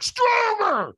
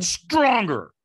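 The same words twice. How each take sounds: First: Very high, loud scream; screamed command. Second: Louder, higher retold command; trainer's demand. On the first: Retold or imitated. Trainer screaming right in the firewalker's face, fierce demand. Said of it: "And he screams at me". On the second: Trainer urging a firewalker to say yes harder, demanding. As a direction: push them for more force. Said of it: "And he went".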